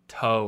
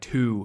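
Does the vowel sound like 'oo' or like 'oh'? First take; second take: oh; oo. First: The vowel is an open 'oh' sound. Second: The vowel is a close 'oo' sound. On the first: The speaker calls it right. "It has to be like, I don't know, like toe" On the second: The speaker calls it wrong. "So you don't want to say like two"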